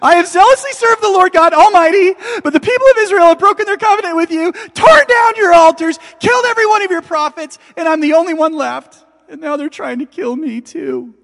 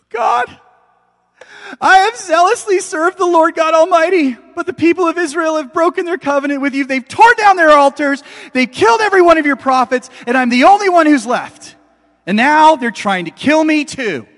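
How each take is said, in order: First: Very high, loud, rushed desperate outcry; frantic repeated cry. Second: High, loud desperate wail to God; anguished cry. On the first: Elijah repeating his frantic complaint to God. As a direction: shout it over and over, unable to stop. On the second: Elijah pleading loudly with God in despair. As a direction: cry out like a man at the end of his rope. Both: Acted.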